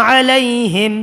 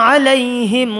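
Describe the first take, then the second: The two takes are said the same way.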